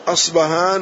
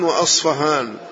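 First: The middle consonant is a b sound. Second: The middle consonant is an f sound. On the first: "وبالباء" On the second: "والفاء أصفهان"

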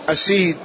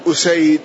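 First: The first vowel is a short a. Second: The first vowel is a short u. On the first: This is a rare, weak reading. The speaker calls it wrong. "ضبطه بفتح الهمزة أسيد" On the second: This is the common reading. The speaker calls it right. "المشهور هو أسيد"

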